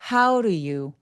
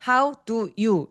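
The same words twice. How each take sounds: First: The words run together with a soft, blurred d. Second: Each word is said separately and clearly. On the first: The speaker calls it right. "덩어리지게 한번 얘기해 볼까요?" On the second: The speaker calls it wrong. "이렇게 나눠서 발음하시는"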